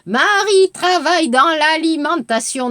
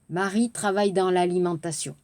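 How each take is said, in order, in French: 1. La hauteur monte et descend par pics marqués. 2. La hauteur reste assez régulière, avec de légers mouvements.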